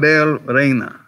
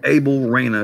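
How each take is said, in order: First: The name is said with Spanish pronunciation. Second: The name is said with American pronunciation.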